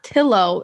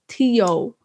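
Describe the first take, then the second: First: The double L is said as an L sound. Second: The double L is said as a Y sound. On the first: The speaker calls it wrong. "not Tillo" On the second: The speaker calls it right. "Two L's is Y"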